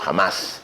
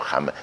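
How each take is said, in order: First: The word is said with strong, forceful emphasis. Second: The word is said plainly, without extra force. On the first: "acentúo la palabra" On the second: "No es que lo digo jamás"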